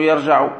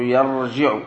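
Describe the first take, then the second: First: يرجع said yarjaʿu with a fatha on the jīm; يرجع with an open a before the ʿayn; wrong form. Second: يرجع said yarjiʿu with a kasra on the jīm; يرجع with an i before the ʿayn; correct form. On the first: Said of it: "لا تقول يرجع". (يرجع بفتح الجيم) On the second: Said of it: "تقول يرجع". (يرجع بكسر الجيم) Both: Shown as a demonstration.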